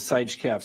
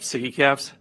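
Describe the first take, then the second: First: The first word is said as 'sige'. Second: The first word is said as 'siggy'. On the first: The speaker calls it wrong. "I pronounced it Sige caps the other day, and that was um, that was wrong" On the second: The speaker calls it right. "That's how you pronounce it, right?"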